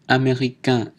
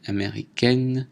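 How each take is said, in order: First: Américain ending in a nasal vowel, no n; américain finishing on nasal in; masculine pronunciation. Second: Américaine ending in èn, n sounded; américaine with an oral vowel before n; feminine pronunciation. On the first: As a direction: keep the n of américain silent. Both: Shown as a demonstration. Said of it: "prononciation différente".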